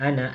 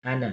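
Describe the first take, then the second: First: Ana with the final a drawn long; long vowel. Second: Ana said with a short final a; short vowel. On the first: Teacher contrasts Ana read long as written. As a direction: stretch the a in Ana. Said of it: "tulisannya panjang". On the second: Teacher shows Ana read short though written long. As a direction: clip the end of Ana short. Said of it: "dibacanya pendek ya". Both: Shown as a demonstration.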